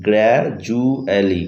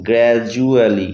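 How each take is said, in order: First: গ্র্যাজুয়ালি drawn out very slowly, the d as j; slower pronunciation demo. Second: গ্র্যাজুয়ালি said slowly, d clearly as j; slow pronunciation demo. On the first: Teacher repeating for viewers, very slow drawn demo. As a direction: stretch out গ্র্যাজুয়ালি, j sound held clear. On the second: Teacher showing viewers the j sound, slow careful demo. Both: Shown as a demonstration. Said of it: "এখানে দেখো জর মতো পাচ্ছি".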